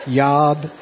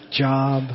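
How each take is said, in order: First: "Yob" with a y sound in place of j. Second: Said in the usual way. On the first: Shown as a demonstration. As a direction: say "Yob" for job, starting with a y. Explains joke's J-as-Y pronunciation.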